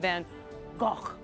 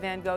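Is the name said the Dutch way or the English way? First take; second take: Dutch; English. First: The name is said with a Dutch pronunciation. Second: The name is said with an English pronunciation. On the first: The speaker calls it right. "you say Van Gogh" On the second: The speaker calls it wrong. "you don't say Van Gogh"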